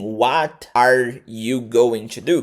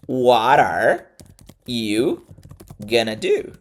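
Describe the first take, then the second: First: Going to is said fully, as two words. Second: Going to is reduced to a quick gonna. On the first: The speaker calls it wrong. "você pode pronunciar assim" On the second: The speaker calls it right. "uma forma mais real de pronunciar"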